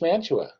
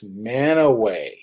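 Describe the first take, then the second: First: It is said with a t, as Man-tu-a. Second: It is said without a t, as Man-a-way. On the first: The speaker calls it wrong. "a lot of you are looking at this and say" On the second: The speaker calls it right. "The correct pronunciation to that is"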